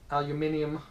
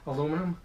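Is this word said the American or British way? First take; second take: British; American. First: It is said with a British pronunciation. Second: It is said with an American pronunciation. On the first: "as the English say" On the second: "as us English Americans say"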